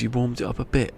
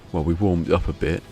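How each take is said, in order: First: Higher-pitched disbelieving question; incredulous echo. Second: Said in the usual way. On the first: Retold or imitated. Vet questioning the dog's owners, incredulous. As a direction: repeat it back in mock disbelief.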